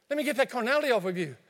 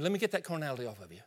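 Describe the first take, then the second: First: Fast, flustered and urgent; panicking while wiping someone off; frantic cleanup. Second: Quick, hushed and sheepish; fussing quietly to tidy up a mess; hurried quiet apology. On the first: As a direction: rush it, flustered. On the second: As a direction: mumble it fast, embarrassed. Pastor acts out cleaning someone. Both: Acted.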